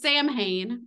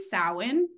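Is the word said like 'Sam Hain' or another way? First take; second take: Sam Hain; another way. First: The word sounds like 'Sam Hain'. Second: The word does not sound like 'Sam Hain'. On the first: The speaker calls it wrong. "They pronounce it Sam Hain, which is just not right" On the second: The speaker calls it right. "It's supposed to be Samhain. Because it's Celtic"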